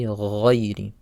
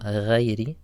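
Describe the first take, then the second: First: "ghayri" slowly, thick gargled gh; heavy ghayn. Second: "ghayri" with a thin first vowel, "ghey-ri"; light ghayn error. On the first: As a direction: say "ghayri" with a dark gh like "ghoy-ri". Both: Shown as a demonstration. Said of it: "Make sure the letter is heavy".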